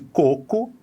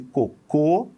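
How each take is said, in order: First: The stress is on the first syllable. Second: The stress is on the second syllable. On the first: "é na primeira sílaba" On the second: "é na segunda sílaba"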